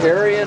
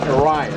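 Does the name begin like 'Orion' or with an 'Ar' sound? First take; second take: Ar sound; like Orion. First: The name begins with an 'Ar' sound. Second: The name is said like the word Orion. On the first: The speaker calls it right. "It's ARION Aircraft" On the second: The speaker calls it wrong. "I didn't say that right. You don't say Orion"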